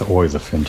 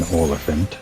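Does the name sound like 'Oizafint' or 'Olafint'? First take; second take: Oizafint; Olafint. First: The name sounds like 'Oizafint'. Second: The name sounds like 'Olafint'. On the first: The speaker calls it wrong. "I think I always pronounce this thing as Oizafint in my head" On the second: The speaker calls it right. "but I guess it's an Olafint"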